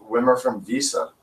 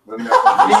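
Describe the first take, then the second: First: Said in the usual way. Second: Higher and louder punchline. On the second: Shown as a demonstration. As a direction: hit the repeat harder. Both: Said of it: "this is a good one".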